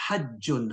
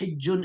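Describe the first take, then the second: First: The first vowel is an 'a' sound. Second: The first vowel is an 'i' sound. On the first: "you can say hajjun" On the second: "there are two ways to say it. You can say hijjun"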